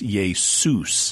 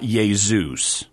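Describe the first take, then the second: First: The middle consonant is an S sound. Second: The middle consonant is a Z sound. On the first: The speaker calls it right. "So in Greek, it's Jesus" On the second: The speaker calls it wrong. "only notice it's not Jesus"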